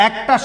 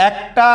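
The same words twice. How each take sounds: No difference in how they are said.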